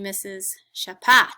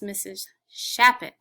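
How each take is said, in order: First: The surname is stressed on its second syllable. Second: The surname is stressed on its first syllable. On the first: The speaker calls it wrong. "You put the accent on the pat part of my name" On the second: The speaker calls it right. "Shappet has an accent on the sha"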